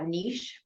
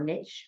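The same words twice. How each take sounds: First: It is said in a non-American accent. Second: It is said in an American accent.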